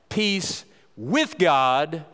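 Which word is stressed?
with. The word with is stressed.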